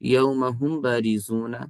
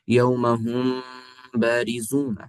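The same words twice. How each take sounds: First: The m is said plainly without nasal hum. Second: The m is held with a nasal hum. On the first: The speaker calls it wrong. "ये सही ना होगा" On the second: The speaker calls it right. "ये तरीका सही है"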